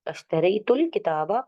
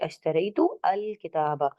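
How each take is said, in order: First: The words are joined and the alif is dropped. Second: The words are separated and the alif is pronounced. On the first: "by joining ashtaraytul kitaba, you can notice that I didn't pronounce the alif" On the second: "or I can say ashtaraytu al kitaba"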